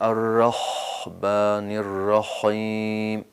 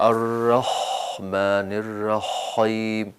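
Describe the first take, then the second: The two takes are said the same way.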